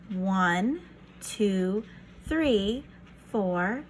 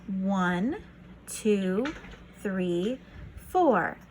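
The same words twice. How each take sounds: The two takes are said the same way.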